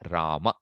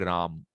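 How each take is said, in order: First: The final vowel is short, one length. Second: The final vowel is dropped entirely. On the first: The speaker calls it right. "We have to make it one one length" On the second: The speaker calls it wrong. "Should not be Ram"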